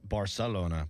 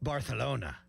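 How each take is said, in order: First: It is said with a Mexican Spanish accent. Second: It is said with a Spain Spanish accent. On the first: "In Mexico, they would say Barcelona as" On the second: "that's how they say it in Spain"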